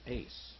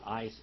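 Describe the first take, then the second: First: The vowel sounds like the one in 'ace'. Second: The vowel sounds like the one in 'ice'. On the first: This is the original Greek pronunciation. The speaker calls it right. "it's ace" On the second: This is the German-derived pronunciation. The speaker calls it wrong. "But it's not ice"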